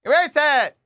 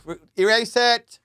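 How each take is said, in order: First: Much higher, louder frantic demand; real panic. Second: Urgent, rising plea to cut it; panicked plea. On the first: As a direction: cry out to delete it, alarmed. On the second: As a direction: blurt it out, suddenly worried. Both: Real, not acted. Panics about incriminating recording.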